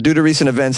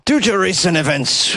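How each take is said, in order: First: It is spoken in the speaker's usual accent. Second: It is spoken in an attempted Scottish accent. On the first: "I'm going to abandon it right away" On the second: "I can't really do a Scottish accent. Let's try"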